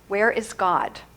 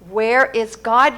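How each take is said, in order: First: It is said sternly. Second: It is said more sternly still.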